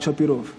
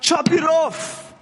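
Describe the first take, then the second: First: It is said quietly and flatly. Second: It is said as a loud shout.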